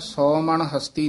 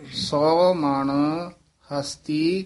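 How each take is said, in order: First: The words run together without a pause. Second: There is a brief pause after 'sau man'. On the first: The speaker calls it wrong. "ਨਹੀਂ ਕਹਿ ਦੇਣਾ" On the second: The speaker calls it right. "ਸੌ ਮਣ, ਇੱਥੇ ਠਮਕ ਲਾ ਦੇਣੀ ਹੈ"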